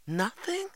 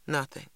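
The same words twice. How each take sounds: First: High rising "Nothing?"; disappointed question. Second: Said in the usual way. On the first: A narrator's reading. Girl repeats brother's news, disappointed and questioning. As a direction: echo it in disbelief, sharply rising pitch. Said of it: "I repeated, disappointed".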